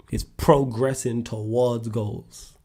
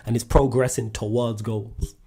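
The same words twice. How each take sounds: First: It's progressing towards goals, every word spaced out and slowed right down; slow, emphatic repeat. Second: Said in the usual way. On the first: Shown as a demonstration. To the livestream viewers, repeating his point slowly and emphatically. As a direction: drive the point home, word by word. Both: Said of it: "That's it".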